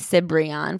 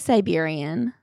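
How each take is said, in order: First: The name is said like 'Cibrian'. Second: The name is said like 'Siberian'. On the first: "I guess it's Eddie Cibrian" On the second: "For some reason, I say Siberian"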